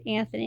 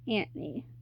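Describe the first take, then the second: First: The name is said the usual American way. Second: The name is said the show's non-American way. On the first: This is how Americans say the name. "That's how we pronounce it in America" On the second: This is how the show says the name. "they pronounce the character's name as Anthony"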